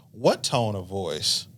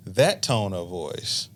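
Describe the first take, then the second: First: Slow, stress on "What"; slow "What tone of voice?", punching "What"; defensive question. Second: Slow, stress on "That"; slow "That tone of voice.", accusing on "That"; pointed reply. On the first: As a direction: lean on "What" as if baffled. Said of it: "I say". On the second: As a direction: hit "That" hard and deliberately. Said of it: "And they say". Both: Retold or imitated.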